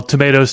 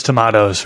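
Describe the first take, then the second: First: "tomatoes" said tuh-MAY-toes; long AY in the middle of "tomatoes"; variant pronunciation. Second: "tomatoes" said tuh-MAH-toes; variant pronunciation. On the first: Host shrugging off the debate, "tomatoes" as tuh-MAY-toes. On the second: Host shrugging off the debate, "tomatoes" as tuh-MAH-toes. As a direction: open AH in the middle of "tomatoes". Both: Shown as a demonstration.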